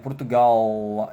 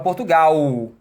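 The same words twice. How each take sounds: First: The final L is pronounced as a clear L. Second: The final L is said like a U. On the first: "Eles puxam L" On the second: "A gente fala Portugal, som de U"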